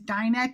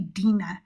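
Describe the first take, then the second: First: The name is said with American pronunciation. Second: The name is said with Hebrew pronunciation. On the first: "the American pronunciation is Dinah" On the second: "the Hebrew pronunciation of the name D I N A H is actually Dina"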